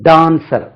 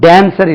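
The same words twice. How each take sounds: First: The first vowel is long, like 'aa'. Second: The first vowel is short. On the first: The speaker calls it right. "தமிழ்ல உள்ள ஆ மாதிரி உச்சரிக்க வேண்டும்" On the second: The speaker calls it wrong. "இல்லாது"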